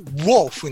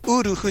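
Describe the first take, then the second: First: It begins with a w sound, lips rounded. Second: It begins with a plain u vowel. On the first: The speaker calls it right. "唇を突き出して発音しますね" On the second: The speaker calls it wrong. "ウルフじゃなくて"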